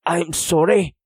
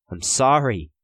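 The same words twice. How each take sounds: First: High, louder apology; apology said aloud. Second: Higher, restrained plea; pleading apology. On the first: Prisoner blames himself before cellmates, apology said aloud. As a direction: speak the apology out loud, pitched up. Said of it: "he said aloud". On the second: Prisoner silently begs for forgiveness, restrained pleading. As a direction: begin to beg forgiveness. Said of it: "he wanted to plead". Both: A narrator's reading.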